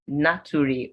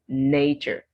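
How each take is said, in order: First: Each letter is sounded out, ending in 'ree'. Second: It is said with four sounds, ending in 'cher'. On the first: The speaker calls it wrong. "you'd end up pronouncing the word as naturi" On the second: The speaker calls it right. "The word is nature"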